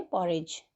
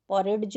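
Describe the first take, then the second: First: Teacher gives the correct पॉरेज; silent d. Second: पॉरेज said with a sounded d before the j; teacher shows the mistaken form of पॉरेज; wrong pronunciation with d sounded. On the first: Teacher corrects students, porridge said with silent d. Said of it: "पॉरेज में डी silent होता है". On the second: Teacher shows students the wrong way, porridge with d. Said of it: "पॉरेज नहीं बोलते". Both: Shown as a demonstration.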